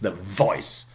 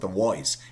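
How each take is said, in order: First: The word begins with a v sound. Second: The word begins with a w sound. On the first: The speaker calls it right. "It's the voice" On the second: The speaker calls it wrong. "No, it's not the voice"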